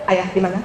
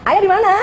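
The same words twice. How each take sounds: First: It is said in a plain, flat voice. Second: It is said in a high, childlike voice.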